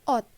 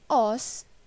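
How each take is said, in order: First: The word ends with a t sound. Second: The word ends with an s sound. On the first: The speaker calls it right. "dibaca menjadi ot" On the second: The speaker calls it wrong. "Bukan dibaca os"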